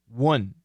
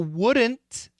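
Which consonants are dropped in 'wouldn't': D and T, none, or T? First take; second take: D and T; none. First: Both the D and the T are dropped. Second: Every consonant, including D and T, is pronounced. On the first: "And wouldn't is also quite common" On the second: "So wouldn't is perfect"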